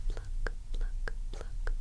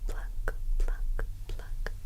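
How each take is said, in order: Both takes have the same delivery.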